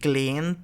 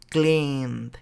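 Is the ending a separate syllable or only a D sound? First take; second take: separate syllable; D sound. First: The ending is said as an extra syllable. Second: The ending is only a final D sound. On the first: The speaker calls it wrong. "ni cleaned, tampoco" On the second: The speaker calls it right. "es yelled, cleaned"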